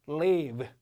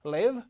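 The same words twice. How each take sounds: First: Live said as leave, falling; long vowel. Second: Live as LIV, rising; brief vowel in live; short vowel. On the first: Teacher leading students' repeat, live said as long leave. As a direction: stretch live into LEEV. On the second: Teacher leading students' repeat, live as short LIV. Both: Shown as a demonstration. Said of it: "저와 함께 시작".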